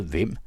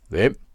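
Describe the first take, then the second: First: Mildly puzzled rising question; surprised question. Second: Loud, short rising call; called-out question. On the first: Narrator recalls host's surprised question, mild wonder. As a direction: quote it with a touch of wonder. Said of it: "På hans forundrede". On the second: Host calls up from the garden, loud questioning shout. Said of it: "råbtes der nede fra haven". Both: A narrator's reading.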